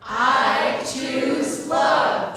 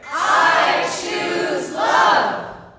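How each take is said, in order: First: It is said noticeably louder. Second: It is said at the loudest volume.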